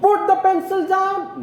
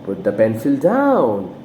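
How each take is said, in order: First: "Put the pencil down" squeaked up high throughout; wrong high intonation. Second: "Put the pencil down" low, DOWN falling away; falling command intonation. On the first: Teacher mocks the wrong way to command, overdone high pitch. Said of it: "No, the teacher says". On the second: Teacher orders a small kid, falling intonation. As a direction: keep it low and drop firmly on "down". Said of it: "we use falling intonation". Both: Shown as a demonstration.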